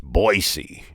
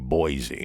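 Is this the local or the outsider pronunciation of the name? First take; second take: local; outsider. First: It is said the way locals pronounce it. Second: It is said the way outsiders pronounce it. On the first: The speaker calls it right. "the way the locals pronounce it" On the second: The speaker calls it wrong. "you notice I didn't say Boise"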